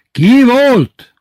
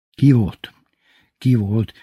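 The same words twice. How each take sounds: First: Very high, loud roar; yelled question. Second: Said in the usual way. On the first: A narrator's reading. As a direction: lose patience and bellow. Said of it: "A harmadik kérdést már ordította Titi". (kitörő ordítás) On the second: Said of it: "A harmadik kérdést már ordította".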